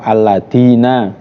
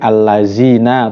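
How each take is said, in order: First: The consonant is a hard 'd' sound. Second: The consonant is a buzzing 'z' sound. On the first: "atau dengan dal" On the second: "dengan za"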